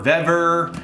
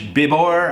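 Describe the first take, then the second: First: The name is said in a plain English way. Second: The name is said in a Spanish-style way.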